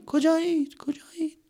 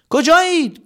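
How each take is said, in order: First: High fading echo; fading cave echo. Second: High loud call. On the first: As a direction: let it ring away. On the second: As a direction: shout the question into the dark. Calling out. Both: Acted.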